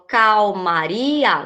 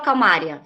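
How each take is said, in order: First: The stress falls on the syllable ri. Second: The stress falls on the syllable ma. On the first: The speaker calls it right. "falou calmaria" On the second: The speaker calls it wrong. "Eu não falo calmária"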